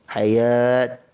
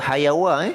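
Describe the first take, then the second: First: The word ends with a -t sound. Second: The word ends with a -wa sound. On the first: The speaker calls it right. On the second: The speaker calls it wrong.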